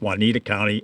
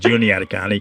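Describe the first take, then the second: First: The name is said like the given name Juanita. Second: The name is said with four syllables, Ju-ni-a-ta. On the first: The speaker calls it wrong. "the wrong name" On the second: The speaker calls it right. "instead of"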